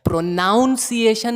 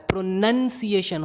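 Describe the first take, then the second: First: प्रोनाउंसिएशन with NOUN like "noun" in the second syllable; wrong pronunciation. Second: प्रोनंसिएशन with a short "nun" second syllable; no "ow" in प्रोनंसिएशन, just nun; correct pronunciation. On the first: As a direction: stress an "ow" sound in प्रोनाउंसिएशन. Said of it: "नहीं होता है". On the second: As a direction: say प्रोनंसिएशन as pro-NUN-see-ay-shun. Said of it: "होता है". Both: Shown as a demonstration.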